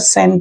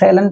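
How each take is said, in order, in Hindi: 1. 'shall' की 'l' ध्वनि छोड़ दी जाती है। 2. 'shall' की 'l' ध्वनि रखी जाती है। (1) "सेंट बोलते हैं" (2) "सेलेंट नहीं बोलते हैं"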